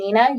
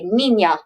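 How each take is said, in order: First: The middle consonant is a plain n sound. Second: The middle consonant is an ny sound. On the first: The speaker calls it wrong. "instead of saying Nina" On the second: The speaker calls it right. "you say niña"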